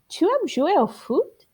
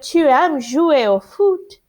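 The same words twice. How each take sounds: First: It is said with question intonation. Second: It is said as a plain statement. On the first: It asks a yes or no question. "just changing how you say it makes it a question" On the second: It states a fact. "Instead of"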